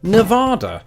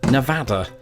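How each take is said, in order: First: The second vowel is an open 'ah' sound. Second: The second vowel is not an 'ah' sound. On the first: The speaker calls it wrong. "the second vowel was equal to that in tostada" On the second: The speaker calls it right. "I will pronounce it Nevada"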